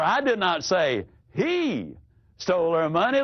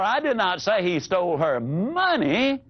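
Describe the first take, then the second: First: The stress is on the word he. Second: The stress is on the word money.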